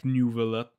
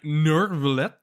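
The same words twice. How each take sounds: First: Neuvillette without the R, like "NEW-vuh-let"; preferred pronunciation. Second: Neuvillette with a hard R, like "NER-vuh-let"; puzzled, rising Neuvillette as "Nervillette"; pronounced with an R. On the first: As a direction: say Neuvillette with a "nyoo" first syllable. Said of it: "I think I prefer calling him". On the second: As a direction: say Neuvillette drawn out with an audible R in the first syllable. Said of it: "With an R". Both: Shown as a demonstration.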